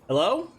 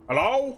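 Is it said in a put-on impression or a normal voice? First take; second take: normal; impression. First: It is said in a plain, natural voice. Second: It is said in a put-on impression voice.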